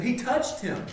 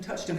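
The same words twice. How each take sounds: First: "touched" lifted high and emphatic; stress on touched. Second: Said in the usual way. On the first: Real, not acted. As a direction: hit the word "touched" with a pitch jump.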